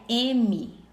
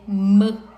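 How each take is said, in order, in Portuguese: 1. O nome completo da letra é dito com uma vogal. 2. Só se diz o zumbido puro da consoante. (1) "O nome da letra é" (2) "O som é"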